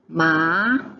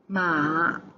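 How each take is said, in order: First: It is said with the second tone. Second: It is said with the third tone.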